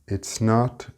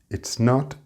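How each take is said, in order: The two takes are said the same way.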